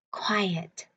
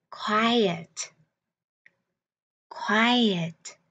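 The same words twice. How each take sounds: First: A hushed Quiet, as if in a library; whispered. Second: Said in the usual way. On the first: Shown as a demonstration. Teacher whispering Quiet to children to show its meaning. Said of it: "Các bạn có biết quiet nghĩa là gì". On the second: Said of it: "teacher models the word".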